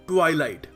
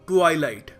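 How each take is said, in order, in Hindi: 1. पहले अक्षर में लंबी 'eye' ध्वनि है। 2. पहले अक्षर में लंबी 'eye' ध्वनि है।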